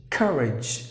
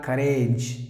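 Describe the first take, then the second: First: "courage" stressed on the first syllable, KUR-idzh; correct pronunciation. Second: "courage" said wrongly as kuh-RAYDZH with a long a; wrong pronunciation. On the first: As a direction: stress the start of "courage", short idge ending. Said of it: "pronounce the word as courage". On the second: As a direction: demonstrate the mistaken "courage" with a long ay. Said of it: "not courage". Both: Shown as a demonstration.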